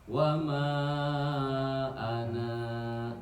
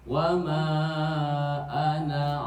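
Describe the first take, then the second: First: The final vowel is held long before stopping. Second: The final vowel is short and runs on. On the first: The reader stops at this word. "tetap anaknya dibaca panjang" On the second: The reader continues without stopping. "kalau di wasol mah sama aja dengan tadi"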